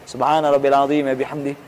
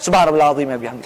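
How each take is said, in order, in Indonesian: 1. Frasa ini dibaca dengan tenang. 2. Frasa ini diucapkan dengan sangat cepat. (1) "kita dianjurkan baca" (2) "Dan itu pun cepat-cepat"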